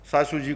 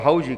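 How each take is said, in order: First: The word begins with an s sound. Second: The word begins with an h sound.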